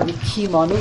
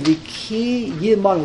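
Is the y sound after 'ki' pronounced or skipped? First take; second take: skipped; pronounced. First: The y sound is dropped from the word. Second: The y sound is spoken as its own syllable. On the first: The speaker calls it wrong. "It's not Nikimanu" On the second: The speaker calls it right. "you have to know the Yud. ... It's a Shvanah"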